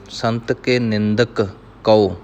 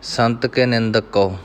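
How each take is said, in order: First: A short pause separates the two k sounds. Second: The two k sounds merge without a pause. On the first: The speaker calls it right. "ਪਹਿਲਾਂ ਨਿੰਦਕ ਪੂਰਾ ਬੋਲਣਾ ਹੈ, ਰੁਕਣਾ ਹੈ, ਫਿਰ ਕਉ ਬੋਲਣਾ ਹੈ" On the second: The speaker calls it wrong. "कई गुरमुख जन पाठ करदਿਆਂ इस तर੍ਹਾਂ पढ़ ਜਾਂਦੇ ਹਨ"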